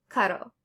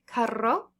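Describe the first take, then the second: First: "caro" with one quick D-like tap; tapped single R. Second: "carro" with a trilled RR; rolled double R. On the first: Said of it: "the English D when it's between vowels". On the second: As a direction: roll the R long in "carro". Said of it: "you're gonna roll it". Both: Shown as a demonstration.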